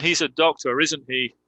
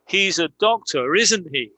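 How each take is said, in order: First: "isn't he" falls, said like a statement; falling intonation. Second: Higher pitch, "isn't he" asked as a real question; rising intonation. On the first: Teacher contrasting two ways of asking, falling intonation on "isn't he". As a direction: drop "isn't he", merely confirming. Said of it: "That's a falling intonation". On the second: Teacher contrasting two ways of asking, rising intonation on "isn't he". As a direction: lift "isn't he" to really ask. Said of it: "That's a real question". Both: Shown as a demonstration.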